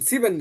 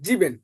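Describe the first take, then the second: First: The word begins with a sharp s sound. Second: The word begins with a buzzing z sound. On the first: The speaker calls it wrong. "সিবেন না" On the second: The speaker calls it right. "এস এর পরে ভাল থাকলে বর্গজ উচ্চারণ হয়, তাহলে জিবেন।"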